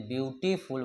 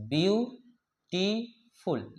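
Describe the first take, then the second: First: Said in the usual way. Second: "beautiful" slowly as view, टी, फुल; long pauses between the three parts of "beautiful"; split into syllables. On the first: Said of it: "जैसे beautiful बोलते हैं". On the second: Shown as a demonstration. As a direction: say "beautiful" in three separate beats. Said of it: "ये three syllable वाले word".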